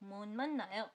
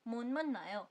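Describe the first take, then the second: The two takes are said the same way.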